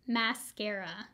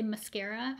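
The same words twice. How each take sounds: First: Mascara said slowly, first syllable like "mask"; careful pronunciation. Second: Mascara with a quick weak "muh" first syllable; quick pronunciation. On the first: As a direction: Mascara with a full "mask" vowel, drawn out. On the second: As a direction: mascara said fast, muh-SCARA. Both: Shown as a demonstration. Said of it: "I realize I say mascara weird".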